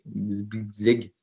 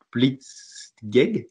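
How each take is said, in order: First: Said in the usual way. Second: Blitzkrieg said with a German accent, a hint; a light put-on German accent on Blitzkrieg. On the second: Shown as a demonstration. (accent allemand léger sur Blitzkrieg) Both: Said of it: "Désolé pour mon accent allemand".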